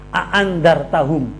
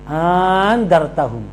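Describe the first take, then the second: First: Both glottal catches are pronounced fully and clearly. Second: The second glottal catch is softened and not clear. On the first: "Tahqiq itu jelas" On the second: "di alif yang yang kedua itu tidak tidak dibaca jelas"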